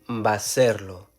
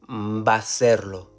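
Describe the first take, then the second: No difference in how they are said.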